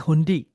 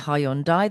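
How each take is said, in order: First: The word drops its 'y' sound. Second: The word keeps its 'y' sound. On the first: "why have you dropped the Y?" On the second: "they don't say Hyundai"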